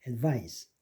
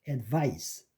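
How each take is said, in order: Both takes have the same delivery.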